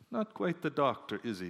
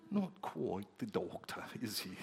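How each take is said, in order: First: Said in the usual way. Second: Put-on British accent. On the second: British congregation sizing up the new American pastor, British accent. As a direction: draw it out softly in a refined British accent. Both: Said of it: "they could say it with such a nice accent".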